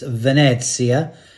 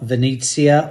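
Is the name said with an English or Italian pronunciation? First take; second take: Italian; English. First: The name is said with an Italian-sounding pronunciation. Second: The name is said with a plain English pronunciation. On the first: The speaker calls it right. "Just put a little bit of uh, Dolce Vita" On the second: The speaker calls it wrong. "not Venezia"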